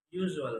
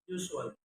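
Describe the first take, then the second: First: Said in the usual way. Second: "usual" with s for zh; learner's mispronunciation. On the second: Shown as a demonstration. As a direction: say "usual" as "yousual". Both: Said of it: "is pronounced".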